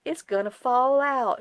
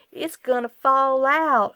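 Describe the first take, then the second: First: High, loud, slow catchphrase; imitating grocery packer. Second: High, loud, slow drawn-out warning; imitating grocery packer. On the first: Husband's running joke retold, high slow mimicry. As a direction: echo the bagger's worried warning. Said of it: "John still to this day says". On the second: Wife imitates the grocery packer to viewers, high and slow. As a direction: mimic the fussy bagger's voice. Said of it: "that's exactly how he sounded".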